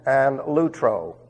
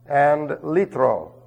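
First: The first vowel is an oo sound. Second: The first vowel is a long ee sound. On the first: The speaker calls it wrong. "they pronounce it ... it's wrong" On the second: The speaker calls it right. "it's a long E sound"

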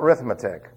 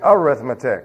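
First: The word starts directly with the r sound. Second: The word starts with its first vowel sound. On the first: The speaker calls it wrong. "It's not arithmetic" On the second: The speaker calls it right. "What happened to the A? It's arithmetic"

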